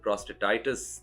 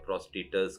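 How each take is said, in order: First: The word ends with an '-aitis' sound. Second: The word ends with an '-etas' sound. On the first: The speaker calls it right. "तुम urologist को urologist बोलो और प्रोस्टेटाइटिस" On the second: The speaker calls it wrong. "अजीब-सा pronounce कर रहा है"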